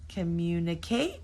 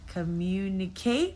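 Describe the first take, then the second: First: The stress is on the last syllable. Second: The same.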